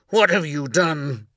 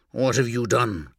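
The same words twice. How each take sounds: First: Higher, louder anguished cry; raging at the heavens. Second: Anguished. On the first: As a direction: hurl the question out in rage. Repeated cry after memory. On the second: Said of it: "You sound anguished". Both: A narrator's reading.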